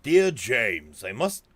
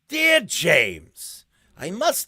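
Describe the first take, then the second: First: It is read in a normal voice. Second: It is read in a crazy Joker-like voice.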